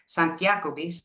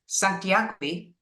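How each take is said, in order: First: The phrase is said fast and run together. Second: The phrase is said at an unhurried pace.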